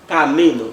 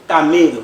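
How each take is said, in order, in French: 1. L'accent tonique est sur la syllabe du milieu. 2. L'accent tonique est sur la syllabe du milieu.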